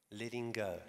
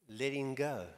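First: Letting go, repeated softly with a falling end; hushed echo of Letting go; softer repeat. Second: Letting go with the weight falling on go; Letting go, said as a key phrase; stress on go. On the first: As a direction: echo Letting go more quietly. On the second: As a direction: land on the word go, falling. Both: Shown as a demonstration.

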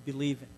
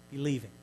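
Both takes have the same delivery.

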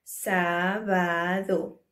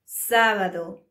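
First: Slow Sábado with the stress on sá; teacher slowing down to show the stress; slow first-syllable stress. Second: Sábado with the stress on sá; teacher modelling stress on sá; first syllable stressed. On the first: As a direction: stretch out Sábado, leaning on sá. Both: Shown as a demonstration. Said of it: "so we stress the first syllable".

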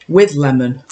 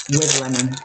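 First: Said in the usual way. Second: Low, dry sarcastic repeat. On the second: Acted. Doubting the lemon flavour on the cake, dry sarcastic. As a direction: say it like the lemon is a lie. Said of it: "We're using that term very loosely".

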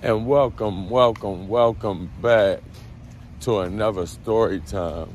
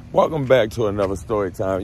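First: Drawn-out welcome. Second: Said in the usual way. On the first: Shown as a demonstration.

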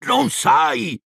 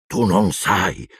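First: High, exclaimed disbelief; high-pitched cry of astonishment; incredulous outburst. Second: Slow, incredulous realisation; drawn-out, dawning disbelief; stunned disbelief. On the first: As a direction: burst out far higher, aghast. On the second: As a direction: say it slowly, taking it in. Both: A narrator's reading. Hagrid stunned, repeats himself louder.

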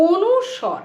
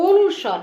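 First: অনুস্বর said clearly and carefully; careful teacher's অনুস্বর; correct pronunciation. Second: অনুস্বর repeated firmly and clearly; firm teacher's অনুস্বর; correct pronunciation. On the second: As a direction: stress the correct অনুস্বর again. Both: Shown as a demonstration. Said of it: "actual উচ্চারণ কিন্তু".

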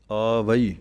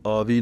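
First: ਆਵਈ said aa-va-ee with every vowel heard; correct pronunciation. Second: ਆਵੀ said short as aavi, the final vowel dropped; wrong pronunciation. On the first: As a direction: say ਆਵਈ fully as aa-va-ee. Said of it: "ਐੜੇ ਕੰਨਾ ਵਾਵਾ ਈੜੀ ਬਿਹਾਰੀ ਆਵਈ". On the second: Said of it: "ਇਹਨੂੰ ਆਵੀ ਨਹੀਂ ਕਹਿਣਾ". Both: Shown as a demonstration.

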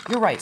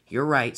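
First: High-pitched, eager little engine voice; Thomas the engine. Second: A hint of the driver, at usual pitch; calm agreement, lightly in character; lightly voiced driver. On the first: Engine agreeing with his driver, high character voice. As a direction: agree brightly, pitched well up. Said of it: "said Thomas". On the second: Driver agreeing with Thomas about turning round, lightly voiced. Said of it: "said his driver". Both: A narrator's reading.

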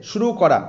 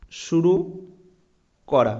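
First: Said in the usual way. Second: শুরু, long pause, then করা; dictation pause. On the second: Shown as a demonstration. Teacher dictating শুরু করা to students taking notes, long pause between words. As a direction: split শুরু and করা with a long gap so students can write. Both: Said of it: "অবশ্যই কিন্তু খাতায় note down করবে".

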